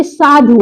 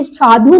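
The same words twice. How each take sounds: First: Second साधु with short final dhu; correct short vowel. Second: First साधु with lengthened dhū; wrong long vowel. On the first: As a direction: clip the last vowel of साधु. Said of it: "बल्कि साधु होता है". (साधु में छोटा उ) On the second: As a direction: hold the final vowel of साधु. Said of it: "साधु नहीं होता है". (साधु का लंबे ऊ वाला गलत उच्चारण) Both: Shown as a demonstration.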